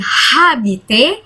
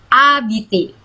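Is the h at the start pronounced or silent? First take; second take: pronounced; silent. First: The word starts with an audible h sound. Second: The word starts directly with the vowel. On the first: The speaker calls it wrong. "bukan habiter" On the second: The speaker calls it right. "H di depan kata itu tidak dibaca"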